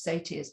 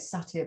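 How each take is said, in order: First: The word is said with an American pronunciation. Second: The word is said with a British pronunciation. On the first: "the American pronunciation is satyrs" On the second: "that's how we say it in England"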